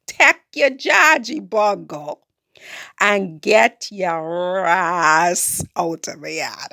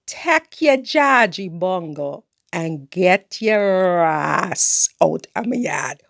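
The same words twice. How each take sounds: First: Slower, drawn-out Creole telling-off. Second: Slow Creole telling-off. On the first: Repeating her order to Raphael, slower Caribbean Creole. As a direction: stretch each word in Caribbean Creole. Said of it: "in Creole". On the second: Telling Raphael off in slow Caribbean Creole. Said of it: "tell you again in Creole". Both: Retold or imitated.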